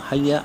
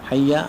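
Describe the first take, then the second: The two takes are said the same way.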